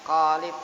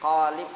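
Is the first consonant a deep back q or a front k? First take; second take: deep q; deep q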